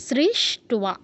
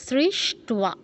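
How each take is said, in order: Both takes have the same delivery.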